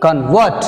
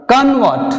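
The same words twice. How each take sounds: First: Convert as con-VERT, vert stressed and rising. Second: Convert as CON-vert, con hit high; stress on CON. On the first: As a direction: stress the second syllable in convert. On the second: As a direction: stress the first syllable in Convert. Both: Shown as a demonstration.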